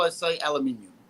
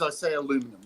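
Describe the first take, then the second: First: It is pronounced the British way. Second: It is pronounced the American way. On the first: It is used around British people. "When I'm around British people, I say aluminium" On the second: It is used around Americans. "when I'm around Americans, I say aluminum"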